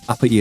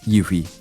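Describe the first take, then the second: First: The name starts with a plain vowel sound. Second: The name starts with a y sound. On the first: The speaker calls it wrong. "I've been mispronouncing uh, Uppy" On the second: The speaker calls it right. "It's actually pronounced Yuffie"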